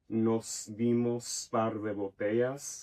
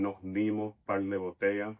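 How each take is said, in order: First: The final s of botellas is pronounced. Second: The final s of botellas is dropped. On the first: "instead of saying like" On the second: "which is how a Puerto Rican would say it"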